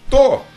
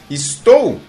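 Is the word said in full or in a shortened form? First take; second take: shortened; full. First: The word is shortened to one syllable. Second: The word is said in full with two syllables.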